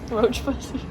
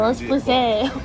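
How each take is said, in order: First: The name is said with plain English sounds. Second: The name is said with a French accent. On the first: "I either just call it that" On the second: "say it with like a little French accent"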